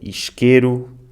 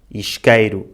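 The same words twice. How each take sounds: First: The stressed vowel is a plain e. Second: The stressed vowel is the diphthong ei.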